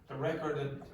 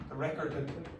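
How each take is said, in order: Both takes have the same delivery.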